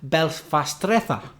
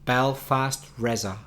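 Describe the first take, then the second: First: It is pronounced with Spanish sounds. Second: It is pronounced with English sounds.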